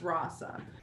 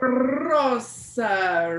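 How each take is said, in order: First: The name is said plainly, without excitement. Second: The name is said with excited, lively energy. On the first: This is the actual pronunciation of the name. The speaker calls it right. "it's just Rasa" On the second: The listener assumes a shared heritage. The speaker calls it wrong. "it really excites them"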